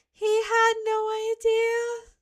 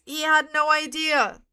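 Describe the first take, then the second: First: High, slow, mocking "He had no idea". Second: Said in the usual way. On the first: Shown as a demonstration. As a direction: squeak "He had no idea" out slowly in a high teasing voice.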